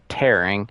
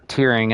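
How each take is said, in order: First: The vowel sounds like the one in 'share'. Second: The vowel sounds like the one in 'hear'. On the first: Ripping things apart. "they're literally tearing things" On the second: Shedding tears, crying. "these statues are tearing up"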